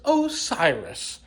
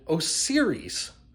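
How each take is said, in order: First: It does not sound like 'Siri' with an O. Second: It sounds like 'Siri' with an O before it. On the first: The speaker calls it right. "but it's Osiris" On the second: The speaker calls it wrong. "I have been saying Osiris wrong this whole time... I blame Apple because of Siri"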